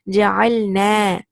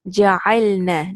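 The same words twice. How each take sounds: First: The final vowel is drawn out and lengthened. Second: The final vowel is short, held one count. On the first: We made. "if I just increase the fatha slightly" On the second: The women made. "It's just one count and you stop there"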